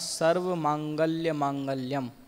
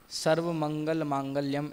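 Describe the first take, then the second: First: The second word is said as 'mangalya'. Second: The second word is said as 'mangal'. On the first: The speaker calls it wrong. "आपने पढ़ा" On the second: The speaker calls it right. "ऐसा पढ़ा जाता है"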